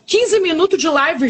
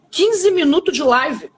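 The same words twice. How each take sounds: First: Said in the usual way. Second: Quinze minutos de live said slowly, leaning on Quinze; slow emphatic repeat. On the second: Shown as a demonstration. Stressing to the audience how quickly it happened, slow and emphatic.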